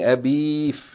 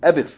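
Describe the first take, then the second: First: The vowel before the f is drawn out long. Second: The vowel before the f is kept short. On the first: The speaker calls it wrong. "We're not saying Abif" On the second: The speaker calls it right. "We're making it short"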